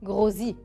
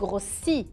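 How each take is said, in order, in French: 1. La consonne du milieu est un z sonore. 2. La consonne du milieu est un s sifflant. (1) "إذا حطينا un seul S بنصير نقول grossi" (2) "قلت grossi تألفظ س"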